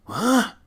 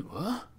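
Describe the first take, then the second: First: What shot up high and loud, a stunned yelp; shocked, loud, high yelp of What. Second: Soft startled rising what, a light quick gasp of a word; a half-hearted startled what. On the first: Shown as a demonstration. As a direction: blurt What as if you just heard Satan. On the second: Retold or imitated. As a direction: ask What quietly, a little taken aback. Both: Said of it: "That's the sound you make".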